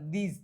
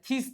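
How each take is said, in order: First: The first sound is a voiced th. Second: The first sound is a voiceless th. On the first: The speaker calls it right. "પણ દીઝ થાય છે" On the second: The speaker calls it wrong. "થીસ થવું જોઈએ"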